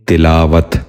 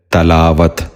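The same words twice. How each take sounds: First: تلاوت with a short i after the t, tilaawat; the right way: تلاوت as ti-laa-wat; correct pronunciation. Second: تلاوت said with a short a after the t, talaawat; the wrong way: تلاوت as ta-laa-wat; wrong pronunciation. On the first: Teacher gives children the correct تلاوت, tilaawat. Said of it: "اس لفظ کا درست تلفظ ہے تلاوت". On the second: Teacher demonstrates the common mistake to children, تلاوت as talaawat. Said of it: "یہ غلط تلفظ ہے". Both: Shown as a demonstration.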